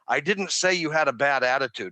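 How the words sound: The stress falls on the word I. "the ball is on I"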